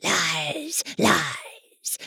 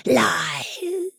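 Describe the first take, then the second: First: Rough, indistinct mocking voice; hoarse voice. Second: High, eerie whispered taunt; hoarse whisper. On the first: Hidden goblin taunts the nurse in a hoarse voice. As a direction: croak it from the dark. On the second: Acted. Hidden goblin whispers its taunt from the dark. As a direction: breathe it out like a ghost. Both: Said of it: "a hoarse, indistinct voice".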